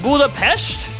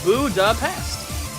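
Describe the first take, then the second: First: The final consonant is a soft, sh-like sound. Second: The final consonant is a hard, hissing s. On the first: "Is it like a soft S?" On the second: "with a hard S sound"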